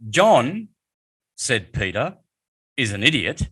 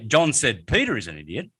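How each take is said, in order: First: Short pauses come before and after 'said Peter'. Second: The sentence runs on without any inner pauses. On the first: Peter is calling John an idiot. "that was Peter talking there" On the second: John is calling Peter an idiot. "then that's John calling Peter an idiot"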